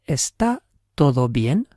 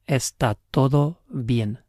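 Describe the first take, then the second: First: The voice rises at the end, like a question. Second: The voice falls at the end, like a statement. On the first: It asks whether everything is okay. "So how would we ask?" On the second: It states that everything is okay. "It's all okay?"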